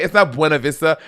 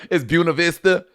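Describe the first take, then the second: First: "Buena" said as BWEN-a; "Buena Vista" Spanish-style with a bwe start; rejected pronunciation. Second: "Buena" said as BYOO-na; anglicised "Buena Vista" with a byoo start; corrected local pronunciation. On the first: Mimicking co-host on the podcast, Spanish-style Buena Vista. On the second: Mimicking co-host's correction on the podcast, BYOO-na Vista. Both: Retold or imitated. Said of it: "You're like".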